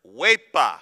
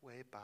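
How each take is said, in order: First: Huepa called out loud with a falling finish; Puerto Rican huepa. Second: Huepa mumbled soft and flat; limp huepa. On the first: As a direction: shout huepa like a celebration cheer. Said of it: "it is the word". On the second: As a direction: say huepa half-heartedly. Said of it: "doesn't mean that you can say". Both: Shown as a demonstration.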